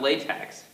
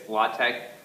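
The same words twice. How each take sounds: First: The word ends with an 'eks' sound. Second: The word ends with a 'k' sound. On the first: The speaker calls it wrong. "do not pronounce it that E X. It's not latex" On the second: The speaker calls it right. "that's just how it's officially pronounced because that T E X, actually that's, the X is a chi"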